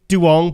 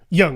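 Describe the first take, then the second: First: The name begins with a D sound. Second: The name begins with a Y sound. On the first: The speaker calls it wrong. "some people might think it's Duong, but it's not" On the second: The speaker calls it right. "It's pronounced with the Y"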